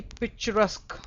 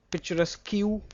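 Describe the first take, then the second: First: "picturesque" ending in a plain K sound; correct pronunciation. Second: "picturesque" ending in "-kew"; mispronounced picturesque. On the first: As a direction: say "picturesque" as "pic-chuh-resk", silent UE. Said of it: "Q U E is always pronounced as". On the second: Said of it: "correct pronunciation here?". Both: Shown as a demonstration.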